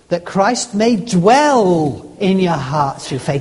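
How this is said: The word dwell carries the stress. It is living there, not just passing through. "Next word, ... Not just pass"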